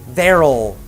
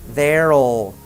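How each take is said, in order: The two takes are said the same way.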